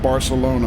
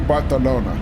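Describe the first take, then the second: First: The middle consonant is an s sound. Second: The middle consonant is a th sound. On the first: The speaker calls it wrong. "we always pronounce it Barcelona because, you know, English pronunciation" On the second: The speaker calls it right. "a lot of the s- sounds in Catalonia you pronounce as, you know, th sounds. ... So it should be Barcelona"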